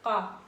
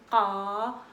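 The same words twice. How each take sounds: First: The vowels after q are short. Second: The vowels after q are long. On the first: "avec les voyelles courtes" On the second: "avec les voyelles longues"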